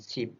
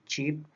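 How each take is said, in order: First: The word begins with an 's' sound. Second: The word begins with a 'ch' sound. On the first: The speaker calls it wrong. "tapi dibacanya dengan sip" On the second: The speaker calls it right. "seperti chip"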